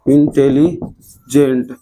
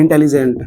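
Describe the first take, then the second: First: Slow syllable reading. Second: Said in the usual way. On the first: Shown as a demonstration. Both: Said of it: "देखो तो ऐसे नहीं बनेगा".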